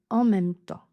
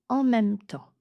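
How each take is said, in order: Both takes have the same delivery.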